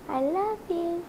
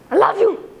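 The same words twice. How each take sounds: First: It is said in a warm, loving tone. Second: It is said in an angry tone.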